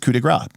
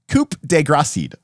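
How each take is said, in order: First: The last word is a single syllable. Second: The last word ends with extra syllables. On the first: This is the term as it is meant to be said. The speaker calls it right. "so that is that is coup de grace" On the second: This is how a young group misread the term. The speaker calls it wrong. "that's what we thought it was pronounced as"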